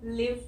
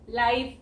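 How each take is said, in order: First: The vowel is a short 'i' sound. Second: The vowel is the long 'eye' sound. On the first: "ये है छोटी ई sound" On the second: "ये है आई sound"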